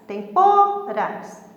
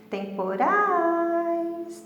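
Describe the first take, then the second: First: The stress is on the middle syllable. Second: The stress is on the last syllable. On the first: The speaker calls it wrong. "para o pô sair mais forte" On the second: The speaker calls it right. "então urais saiu mais forte"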